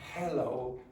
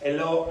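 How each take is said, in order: First: It starts with a strong breathy h sound. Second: It starts without any breathy h sound. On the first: The speaker calls it right. "so you will say hello" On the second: The speaker calls it wrong. "You don't want hello"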